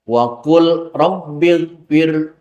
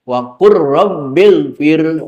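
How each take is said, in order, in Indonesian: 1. Bunyi L sebelum r dibaca dengan jelas. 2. Bunyi L menyatu dengan r setelahnya. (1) "Lamnya dijelaskan" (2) "lamnya tidak dibaca"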